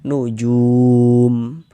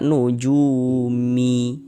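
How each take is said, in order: First: The word ends on a final consonant. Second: The word ends with an extra vowel. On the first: The speaker calls it right. "kita baca nujum" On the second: The speaker calls it wrong. "Jangan dibaca nujumi"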